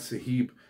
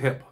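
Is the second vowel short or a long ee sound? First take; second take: long ee; short. First: The second vowel is a long ee. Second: The second vowel is short. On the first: The speaker calls it wrong. "there's no two E's in there. So definitely not Saheb" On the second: The speaker calls it right. "I'm going to go Saheb"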